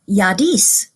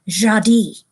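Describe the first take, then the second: First: The name is said the way a Scandinavian word sounds. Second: The name is said the way a French word sounds. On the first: "it looked more Scandinavian, and so they call her Yadis" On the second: "it sounded like a French word, and so they pronounce it Jadi"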